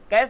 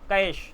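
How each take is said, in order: First: The word ends with a plain s sound. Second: The word ends with a hushing sh sound. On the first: The speaker calls it wrong. "कैश गलत है" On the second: The speaker calls it right. "शा बोलना है"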